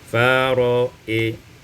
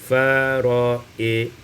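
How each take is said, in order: No difference in how they are said.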